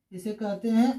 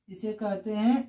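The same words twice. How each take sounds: The two takes are said the same way.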